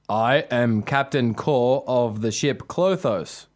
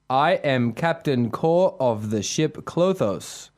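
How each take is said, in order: First: It is said in a deeper voice. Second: It is said in a normal voice.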